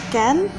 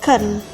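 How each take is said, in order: First: The word has a full, clear vowel. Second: The word has a short, weakened vowel. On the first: The word is said on its own. "kata can sendiri itu bisa jadi can" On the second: The word is said inside a sentence. "ketika dia masuk di sentence, it turns into can"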